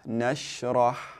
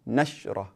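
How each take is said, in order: First: The sh sound is held slightly longer. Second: The sh sound is cut off quickly. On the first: The speaker calls it right. "the sheen, there's going to be a, a slight elongation" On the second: The speaker calls it wrong. "We don't say nashrah, or uh, we don't quickly cut off the sound"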